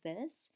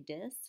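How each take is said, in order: First: It starts with a soft th sound. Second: It starts with a hard d sound. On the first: "instead of saying this" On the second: "fewer dental fricatives"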